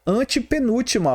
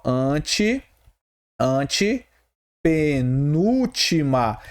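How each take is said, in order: First: Said in the usual way. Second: "antepenúltima" very slow, broken after "ante"; syllable-by-syllable demo. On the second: Shown as a demonstration. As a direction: stretch "antepenúltima" out in separated chunks for the class. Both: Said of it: "olha só".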